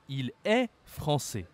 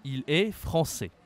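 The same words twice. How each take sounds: The two takes are said the same way.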